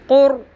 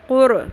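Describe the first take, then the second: First: The final r is held steady without bounce. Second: The final r ends with an echoing bounce. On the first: The speaker calls it right. "Fix कर देना" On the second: The speaker calls it wrong. "रॉ के ऊपर आपने कलकला नहीं करना। क़ुर ऐसे नहीं पढ़ना"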